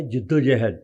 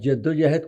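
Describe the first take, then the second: First: "جد و جہد" slowly, with "i" in the first syllable; correct pronunciation. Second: The faulty "jaddo-jahad" for "جد و جہد"; wrong pronunciation. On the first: Punjabi man correcting a newsreader, "جد و جہد" said slowly as "jiddo-juhd". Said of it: "وہ لفظ ہوتا ہے جد و جہد". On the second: Punjabi man quoting a newsreader's slip, "جد و جہد" mispronounced as "jaddo-jahad". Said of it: "وہ لفظ جد و جہد کوئی نہیں ہوندا". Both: Retold or imitated.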